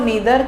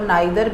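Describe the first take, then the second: First: The first vowel sounds like 'ee'. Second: The first vowel sounds like 'eye'. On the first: "इन ईदर और नीदर के pronunciation" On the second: "pronunciation आइदर और नाइदर भी होते हैं"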